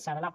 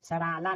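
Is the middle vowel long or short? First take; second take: short; long. First: The middle vowel is short. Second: The middle vowel is long. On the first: The speaker calls it right. "तो इसे सरला पढ़ेंगे" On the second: The speaker calls it wrong. "सराला नहीं"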